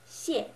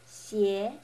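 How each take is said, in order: First: It is said with the fourth tone. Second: It is said with the second tone. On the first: "it's the fourth one" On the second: "The second"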